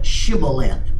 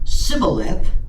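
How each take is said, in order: First: The word begins with an sh sound. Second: The word begins with an s sound. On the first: The speaker calls it right. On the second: The speaker calls it wrong.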